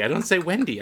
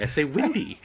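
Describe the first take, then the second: First: "Wendy" with a clear e as in bend; Wendy with short e. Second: "Windy" with a short i; Wendy said as Windy. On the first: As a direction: say "Wendy" with an open e. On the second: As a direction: swap the e for i in "Windy". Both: Retold or imitated.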